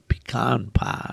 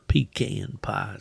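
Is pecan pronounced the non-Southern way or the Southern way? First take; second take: non-Southern; Southern. First: Pecan is said in a non-Southern way. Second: Pecan is said the Southern way.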